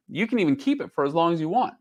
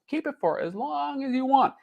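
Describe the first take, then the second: First: Said in the usual way. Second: Lightly voiced salesman, much higher; high sweet pitch voice. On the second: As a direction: sing it out like a sweet offer. Repeats Netflix pitch line.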